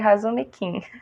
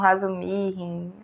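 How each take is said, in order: First: The consonant before the last syllable is a k. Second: The consonant before the last syllable is an h. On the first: This is how the speaker affectionately says the name. "eu chamo carinhosamente de Razumikin" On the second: This is how some other people say the name. "Algumas pessoas chamam Razumihin"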